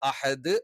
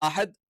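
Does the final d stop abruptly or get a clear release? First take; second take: released; abrupt. First: The final d is released slowly and clearly. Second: The final d is cut off abruptly. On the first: The speaker calls it right. "അഹദ് അഹദ് എന്ന് കറക്റ്റ് പറയണം" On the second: The speaker calls it wrong. "അല്ലാതെ അഹദ് എന്ന് പറഞ്ഞ് നിർത്താൻ പാടില്ല"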